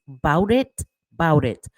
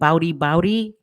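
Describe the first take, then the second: First: The words are said as 'bout it, bout it'. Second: The words blur together into 'bowdy bowdy'. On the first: The speaker calls it right. "If you mother effers don't know what you're saying, it's bout it" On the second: The speaker calls it wrong. "please stop saying it"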